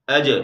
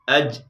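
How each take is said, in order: First: The final j is released with a small bounce. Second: The final j stops abruptly without any bounce. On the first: The speaker calls it right. "ये सही तरीका है" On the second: The speaker calls it wrong. "ये गलत तरीका है"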